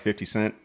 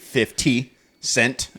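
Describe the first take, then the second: First: The words are said loosely and relaxed, without crispness. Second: Each sound is pronounced very crisply and deliberately. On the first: It sounds natural and cool. The speaker calls it right. "if you just say like fifty cent, it's not that bad" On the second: It sounds stiff and uncool. The speaker calls it wrong. "when you super enunciate fifty cent"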